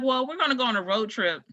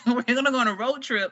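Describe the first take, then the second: First: Said in the usual way. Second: Amused repeat. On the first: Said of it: "She was like". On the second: Real, not acted.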